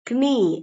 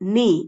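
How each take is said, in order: First: The word starts with a k sound. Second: The word starts with an n sound. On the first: The speaker calls it wrong. "அந்த கேவை உச்சரிச்சு நம்ம சொல்லக்கூடாது" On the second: The speaker calls it right. "கேவை அடிச்சுட்டு"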